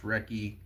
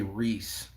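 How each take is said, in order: First: "Recce" in two syllables, ending in ee; "Recce" like "wreck" plus ee; correct name pronunciation. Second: "Reese" as one syllable, long ee; "Reese" rhyming with fleece; misread name. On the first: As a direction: say "Recce" with a hard k in the middle. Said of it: "it's pronounced Recce". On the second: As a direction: say the mistaken reading "Reese". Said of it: "I always wanna say". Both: Shown as a demonstration.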